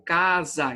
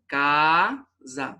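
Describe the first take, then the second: First: Said in the usual way. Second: Casa said slowly as ca-sa; syllables split apart. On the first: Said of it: "então casa, se-, separou". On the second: Shown as a demonstration. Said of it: "se-, separou".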